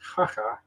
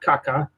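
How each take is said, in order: First: The syllables begin with an h sound. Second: The syllables begin with a k sound. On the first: The speaker calls it right. "it's Jaja" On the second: The speaker calls it wrong. "which is not Caca"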